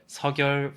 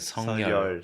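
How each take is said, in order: First: The first syllable ends in a 'k' sound. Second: The first syllable ends in an 'ng' sound. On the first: "Some people pronounce it as" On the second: "some people pronounce it as"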